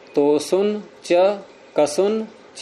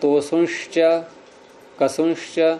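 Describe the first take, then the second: First: Each 'ca' is separate after a plain n. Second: Each 'ca' is joined with an 'sh' sound. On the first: This is the form one would expect. "ये बोलना चाहिए" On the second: This is the form actually recited. "और बोल रहे हैं"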